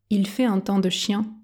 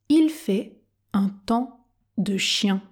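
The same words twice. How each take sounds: First: It is spoken at a normal pace. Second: It is spoken very slowly and carefully. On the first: "Version normale" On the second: "Version tortue"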